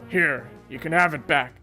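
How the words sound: It is said in a different character's voice.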